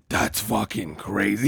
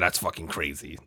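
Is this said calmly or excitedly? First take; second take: excitedly; calmly. First: The words are said in a loud, excited voice. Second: The words are said in a calm, flat voice. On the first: The listener overreacts to the news. "But you're never going, like, that's fucking crazy" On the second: The listener stays calm about the news. "you might be like, yeah, that's fucking crazy"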